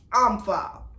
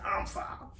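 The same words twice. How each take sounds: First: Said in the usual way. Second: Breathy whisper of "I'm foul", no voice; unvoiced, sarcastic "I'm foul" under the breath; whispered aside. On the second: Sarcastic answer to Annie's insult.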